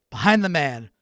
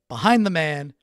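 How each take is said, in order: Both takes have the same delivery.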